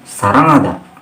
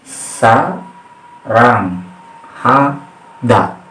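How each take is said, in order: First: It is said quickly, syllables run together. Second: It is said slowly, syllable by syllable. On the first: "Kalau dicepatkan" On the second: "Cara membacanya kayak gini"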